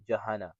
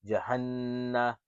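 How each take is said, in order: First: The n sound is short and single. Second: The n sound is held long and doubled. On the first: "Here it would just be Jahana" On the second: "it says there's a shadda here"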